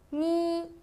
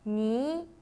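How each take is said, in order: First: The pitch stays high and level. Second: The pitch rises from middle to high.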